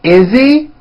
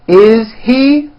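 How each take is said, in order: First: The words are reduced and run together. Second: Each word is said fully and separately.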